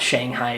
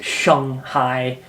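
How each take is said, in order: First: Shanghai is said with an English-style pronunciation. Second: Shanghai is said with a Mandarin-like pronunciation. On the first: The speaker calls it wrong. "it's not Shanghai" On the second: The speaker calls it right. "it's Shanghai"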